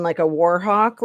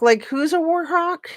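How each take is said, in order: First: Said in the usual way. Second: Incredulous. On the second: Real, not acted. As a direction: pitch jumps way up, disbelieving question. Repeating the accusation, then mocking it.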